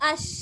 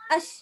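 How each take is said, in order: First: The sh sound flows out long and full. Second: The sh sound is cut off short. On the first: The speaker calls it right. "தாம் பூரணமாக... அப்படி வெளிவரணும்" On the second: The speaker calls it wrong. "Short பண்றோம்... அப்படி இல்லை"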